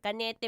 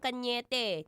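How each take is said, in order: First: It is said with a plain n sound. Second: It is said with an ny sound. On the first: The speaker calls it wrong. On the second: The speaker calls it right.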